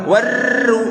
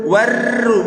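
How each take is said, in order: Both takes have the same delivery.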